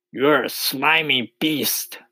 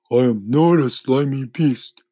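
First: High, slow taunting insult; taunting centipede. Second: Higher, louder indignant denial; indignant earthworm. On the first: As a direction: jeer as a storybook centipede. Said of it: "answered the centipede". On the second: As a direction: deny it as an offended earthworm. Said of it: "the earthworm said". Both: A narrator's reading.

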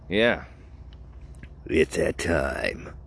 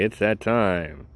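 First: Low, drawn-out announcer voice; mock-solemn announcement. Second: Said in the usual way. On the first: Podcaster announces the segment has come, mock-solemn. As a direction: drop it down and stretch it slowly. Repeats announcement in put-on deep voice.

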